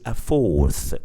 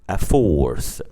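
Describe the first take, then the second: Both takes have the same delivery.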